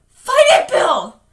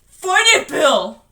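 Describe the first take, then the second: First: Very high, loud desperate scream. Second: High, loud urging yell; urgent shout. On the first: Beverly begging Bill to fight, screaming. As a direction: scream to save him. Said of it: "Beverly was screaming". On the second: Richie urging Bill to fight, shouting. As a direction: shout to rouse a friend. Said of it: "Richie shouted". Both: Acted.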